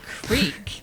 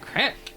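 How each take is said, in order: First: The vowel is a long ee sound. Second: The vowel is a short i sound. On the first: "I said creek" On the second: "not crick"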